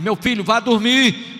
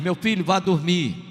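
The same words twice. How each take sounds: First: It is said a little louder, voice raised. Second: It is said at a normal, calm volume.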